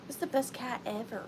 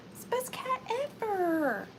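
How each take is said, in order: First: Said in the usual way. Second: Gushing. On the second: Acted. Repeats praise of the cat.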